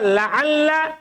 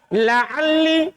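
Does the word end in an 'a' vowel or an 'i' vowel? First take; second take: a; i. First: The final syllable ends in an 'a' vowel. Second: The final syllable ends in an 'i' vowel. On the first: "Mereka kadang baca fathah" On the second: "kadang mereka juga kasro"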